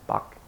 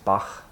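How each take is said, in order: First: The name is said the English way. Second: The name is said the German way. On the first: "American or English speakers say Bach" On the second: "But the correct German is Bach. There's a h"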